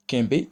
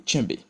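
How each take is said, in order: First: "kembe" starting on a hard K. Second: "tchembe" starting on a tch sound. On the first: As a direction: say "kembe" with a plain K, nasal first vowel. (« kembe » avec un K dur) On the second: (« tchembe » avec le son tch) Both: Shown as a demonstration. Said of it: "qui peut être également prononcé".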